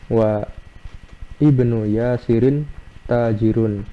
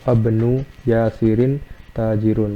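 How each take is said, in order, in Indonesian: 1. Vokal pertama dari 'ibnu' dibaca terpisah. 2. Vokal pertama dihilangkan, disambung menjadi 'wabnu'.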